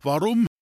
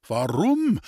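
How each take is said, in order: First: "Warum" thrown back high and loud, rising at the end; echoed WARUM. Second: "Warum" lifted high and louder, then falling; questioning WARUM. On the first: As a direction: echo the question "Warum" with an upward lift. Wendel echoes the priest's question. (zurückgefragtes „Warum“, hoch und laut, am Ende steigend) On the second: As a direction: ask "Warum" as the priest, pitch jumping up and dropping. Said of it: "fragte der Pfarrer". (fragendes „Warum“, laut gehoben, am Ende fallend) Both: A narrator's reading.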